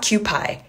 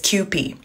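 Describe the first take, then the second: First: The last syllable sounds like 'pie'. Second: The last syllable does not sound like 'pie'. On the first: The speaker calls it wrong. "I know it says pie right here, but it's not Kewpie" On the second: The speaker calls it right. "It's Kewpie"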